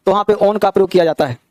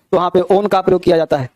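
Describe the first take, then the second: No difference in how they are said.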